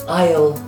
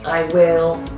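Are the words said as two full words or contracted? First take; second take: Contracted; Full. First: The words are squeezed into one short syllable. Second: Both words are said fully and separately.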